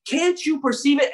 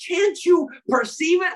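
First: Said in the usual way. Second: Much higher, pleading challenge; emphatic challenge. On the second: Retold or imitated. God urging his people, a high emphatic challenge. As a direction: lift it up high and press the question. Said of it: "I love that when he's like".

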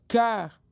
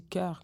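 First: "cœur" loud and drawn out, exaggerated; imitated pronunciation. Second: "cœur" said her usual way, unexaggerated; her own pronunciation. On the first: Woman pointing out the subtlety, exaggerated loud "cœur". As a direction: imitate someone stressing "cœur", loud and long. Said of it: "On m'a fait remarquer cette subtilité". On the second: Shown as a demonstration. Singer showing how she says "cœur", unexaggerated. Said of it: "moi, je dis cœur".

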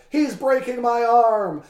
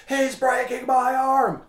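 First: High, loud, slow wail; hammed-up shout of pain; overacted wrestler howling at the ref; mock anguished cry. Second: High, slow, silly whine of pain; jokey exaggerated wail; mocking whine. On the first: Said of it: "Again, he cried". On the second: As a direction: parody the wrestler's complaint.

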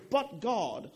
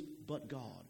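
First: "But God" rising high and louder, with a falling finish; preacher proclaiming "But God" to the room, louder; proclaimed but God. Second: "But God" dropped low and much softer, reverent; preacher saying "But God" in awe, much softer; hushed but God. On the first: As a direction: call out "But God" like good news. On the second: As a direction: let "But God" sink to a hush, lower and quieter. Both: Shown as a demonstration. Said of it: "And, and we say".

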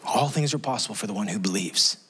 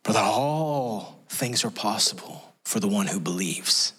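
First: Said in the usual way. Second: Slow, low voice catching with a cry; tearful declaration. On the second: Shown as a demonstration. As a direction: let emotion break through, slowly.

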